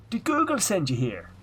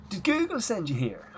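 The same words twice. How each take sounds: First: Higher, louder Irish guard's question; thick Irish accent. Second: Higher Irish guard's question, played as a running joke; mock Irish guard. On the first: Retold or imitated. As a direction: lean in like a Garda officer, thick Irish brogue. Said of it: "in the best accent ever that I can do now". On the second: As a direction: tease your partner with the Garda's line in Irish brogue. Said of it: "to just turn to the other one and go".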